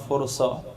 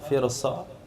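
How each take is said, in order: First: The first vowel is a u sound. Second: The first vowel is an i sound. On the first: "Dalam hadis tadi barisnya doma" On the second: "firsah itu dibaca dengan kasrah fa"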